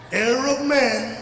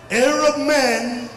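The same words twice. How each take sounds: The two takes are said the same way.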